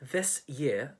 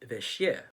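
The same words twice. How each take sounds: First: The s and y sounds stay separate. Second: The s and y merge into one sound.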